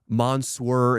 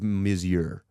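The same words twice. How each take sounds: First: The word is pronounced in a deliberately anglicized way. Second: The word is pronounced the usual French way. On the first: "purposely mispronouncing" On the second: "instead of"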